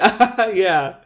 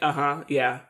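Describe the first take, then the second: First: The reply sounds warm and engaged. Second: The reply sounds flat and dismissive. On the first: The other person's remark is acknowledged. The speaker calls it right. "that's what I should have done" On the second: The other person's remark is brushed off. The speaker calls it wrong. "it sounds very rude"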